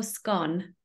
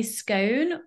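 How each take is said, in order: First: "scone" rhyming with "gone"; "scone" with the vowel of "hot"; short-O scone. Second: "scone" rhyming with "cone"; "scone" with the vowel of "go"; long-O scone. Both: Shown as a demonstration. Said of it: "do you say scone or scone".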